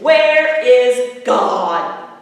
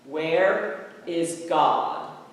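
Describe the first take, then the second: First: It is said very loudly, voice raised most. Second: It is said sternly at moderate volume.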